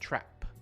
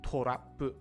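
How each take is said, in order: First: The consonants are said without added vowels. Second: Extra vowels break up the consonants. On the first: The speaker calls it right. "in English, trap" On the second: The speaker calls it wrong. "Not torapu"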